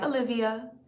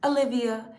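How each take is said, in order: The two takes are said the same way.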